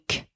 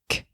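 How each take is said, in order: Both takes have the same delivery.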